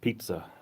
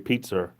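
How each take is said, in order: First: The word ends in a plain vowel, no R. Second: The word ends with an added R sound. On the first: This is how people outside the North End say it. "you don't say pizza" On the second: This is how North End locals say it. "You say pizza... They put the R on there"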